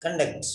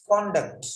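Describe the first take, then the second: First: "Conduct" as kən-DUCT with a weak first vowel; "Conduct" said kun-DUCT, falling; verb conduct. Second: "Conduct" as KON-duct, full o; "Conduct" with an open first vowel, falling; noun conduct. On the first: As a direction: reduce the o of "Conduct" to a schwa. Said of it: "means manage". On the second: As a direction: stress CON in "Conduct". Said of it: "means character". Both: Shown as a demonstration.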